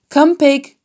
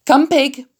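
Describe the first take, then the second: First: Louder coaxing call to the pig; coaxing farmer, louder. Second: Higher, lightly coaxing call; coaxing farmer. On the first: Farmer tapping pail, calling pig again, louder coax. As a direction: call the pig again, a bit more firmly. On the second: Farmer luring pig with slops, lightly coaxing call. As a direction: call the pig gently to the pail. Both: A narrator's reading. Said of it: "said Mister Zuckerman".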